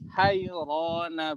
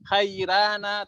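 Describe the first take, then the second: First: The ra sound is heavy and thick. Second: The ra sound is light and thin. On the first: "tetapi juga boleh" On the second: "Aslinya tipis ya"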